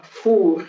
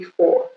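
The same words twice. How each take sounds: First: French "four", with oo vowel and r; "four" drawn out as French "foor"; French pronunciation. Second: English "four", with an aw vowel; "four" rhyming with "door"; English pronunciation. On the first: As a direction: say "four" as the French word for oven. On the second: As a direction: count it in English: "four", silent r. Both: Shown as a demonstration. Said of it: "c'est pas four".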